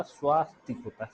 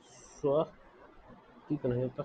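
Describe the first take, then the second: First: "स्वास्तिक" with the long "स्वा" said a bit louder; louder right take of "स्वास्तिक"; correct form stressed. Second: "स्वस्तिक" drawn out slowly as the form to avoid; the rejected short "स्व" in "स्वस्तिक", said slowly; slow wrong take of "स्वस्तिक". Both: Shown as a demonstration.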